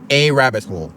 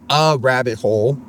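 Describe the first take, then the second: First: The words are run together as one word. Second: The words are said as separate words. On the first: The speaker calls it right. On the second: The speaker calls it wrong.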